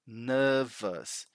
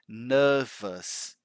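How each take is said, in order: First: The word ends with an 'us' sound. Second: The same.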